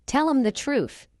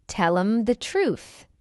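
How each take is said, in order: First: Quick, higher "Tell 'em the truth"; fast English. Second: Slow, measured "Tell 'em the truth"; slow model. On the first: Teacher trains learners' ears, fast. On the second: Teacher models the phrase for learners first, slowly. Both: Shown as a demonstration. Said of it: "fast English is not difficult".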